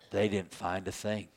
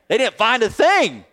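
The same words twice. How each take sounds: First: It is said in a gloomy, disappointed tone. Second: It is said in an excited, happy tone.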